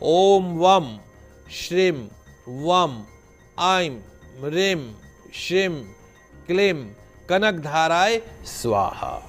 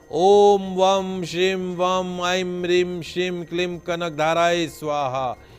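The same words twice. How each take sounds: First: It is said slowly, word by word. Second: It is said at a normal, quicker pace.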